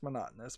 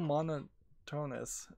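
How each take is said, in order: First: The word is pronounced in the usual standard way. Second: The word is pronounced in an altered, nonstandard way. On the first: The speaker calls it right. "I know it's pronounced monotonous" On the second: The speaker calls it wrong. "sometimes I mispronounce things to to make it sound more like what it means"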